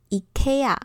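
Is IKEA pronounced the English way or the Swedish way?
Swedish. It is pronounced the Swedish way. This is the most correct pronunciation. The speaker calls it right. "在瑞典文当中呢，这个字念成IKEA"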